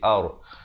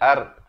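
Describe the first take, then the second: First: The r sound is heavy and thick. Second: The r sound is light and thin. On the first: The speaker calls it right. "ro-nya di sini dibacakan dengan tebal" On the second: The speaker calls it wrong. "jangan baca ar"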